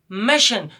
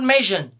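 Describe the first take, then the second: First: The ending is said with a voiceless 'shun' sound. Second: The ending is said with a voiced 'zhun' sound. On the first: The speaker calls it right. "the correct pronunciation of these four letters will be shun" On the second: The speaker calls it wrong.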